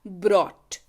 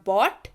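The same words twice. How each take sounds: First: "brought" slowly, with the R after B; careful, R sounded. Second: "bought" pronounced carefully without any R. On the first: Teacher recapping the confusing pair, careful "brought" with R. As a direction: say "brought" low and slow, R clearly heard. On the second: Teacher recapping the confusing pair, careful "bought" without R. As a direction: say "bought" lower, B straight into the vowel. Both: Shown as a demonstration. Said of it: "बड़े ध्यान से करें".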